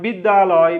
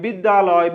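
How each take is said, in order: First: The two words merge into one, said quickly. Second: The same.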